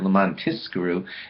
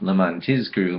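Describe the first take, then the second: First: The middle consonant is pronounced as an S sound. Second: The middle consonant is pronounced as a Z sound. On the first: In order that we be rewarded. The speaker calls it wrong. "If that letter were to sound like an S, it's actually the wrong word" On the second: In order that we remember. The speaker calls it right. "means in order that we remember"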